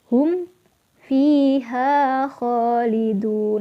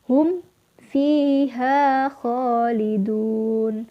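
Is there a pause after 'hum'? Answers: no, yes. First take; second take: yes; yes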